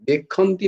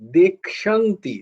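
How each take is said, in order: First: The middle consonant is a plain 'kh' sound. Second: The middle consonant is a 'ksh' cluster. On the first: The speaker calls it wrong. "देखन्ति नয়" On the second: The speaker calls it right. "उच्चारणटा हच्छे"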